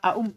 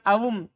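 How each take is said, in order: First: The second hamza is kept as a glottal stop. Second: The second hamza is replaced by a w sound. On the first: "kalau antum tidak mau antum sohikan" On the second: "Fa in syi'ta abdalta, kalau antum mau ganti"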